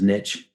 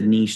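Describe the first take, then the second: First: It is said with an American pronunciation. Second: It is said with a British pronunciation.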